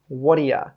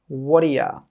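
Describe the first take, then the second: First: The words run together, 'you' reduced to 'ya'. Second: The same.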